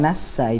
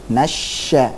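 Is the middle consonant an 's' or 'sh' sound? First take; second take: s; sh. First: The middle consonant is a sharp 's' sound. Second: The middle consonant is a spread 'sh' sound. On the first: The speaker calls it wrong. "Bukan nassa, itu sin" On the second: The speaker calls it right. "huruf shinnya sebarkannya"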